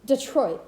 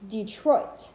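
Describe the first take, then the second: First: Detroit restated as a correction, tune falling; corrected pronunciation. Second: Detroit as an iamb, de-TROIT; weight the TROIT in Detroit, pitch lifting; stress on second syllable. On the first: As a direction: say Detroit over, landing with a fall. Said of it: "my bad". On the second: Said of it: "or pronounced correctly". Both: Shown as a demonstration.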